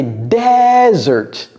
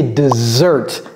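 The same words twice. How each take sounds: First: "desert" slowly as DEEEZ-ert, first syllable stretched; English desert. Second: "dessert" slowly as dih-ZERT; low "dessert", z sound, second syllable stressed; English dessert. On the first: Teacher translates le désert, exaggerated pronunciation model. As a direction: lean hard on the start of "desert". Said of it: "l'accent est mis sur la première syllabe". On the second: Teacher translates le dessert, careful pronunciation model. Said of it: "ça se prononce dessert". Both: Shown as a demonstration.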